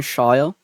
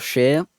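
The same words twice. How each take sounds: First: "shire" said in full as SHY-er; alternative pronunciation. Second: "shire" said as SHEER, like the county suffix; alternative pronunciation. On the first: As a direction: say "shire" to rhyme with fire. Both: Shown as a demonstration. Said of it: "I don't know how you pronounce it".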